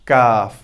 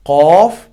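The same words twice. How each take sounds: First: काफ said thin and light; हल्का काफ; light kaf. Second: कॉफ said heavy with rounded lips; भारी कॉफ; heavy qaf. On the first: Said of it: "light sound". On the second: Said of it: "देखिए heavy sound". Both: Shown as a demonstration.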